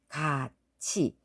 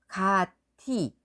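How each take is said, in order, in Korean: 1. 가운데 자음은 ch 소리예요. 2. 가운데 자음은 그냥 t 소리예요.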